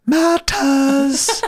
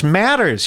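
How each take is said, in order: First: MATTERS as a high, drawn-out "mah-tahs"; odd pronunciation. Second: Said in the usual way. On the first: Retold or imitated. Mocking how the singer said the word, odd high r-less pronunciation. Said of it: "Why is he saying it like that?". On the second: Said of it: "He doesn't do that in the song".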